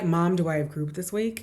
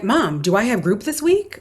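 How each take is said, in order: First: The question is asked flatly, without any excitement. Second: The question is asked with eager, excited energy. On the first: The child is not looking forward to the group. "not like" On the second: The child is looking forward to the group. "like that like preemptive like but with excitement"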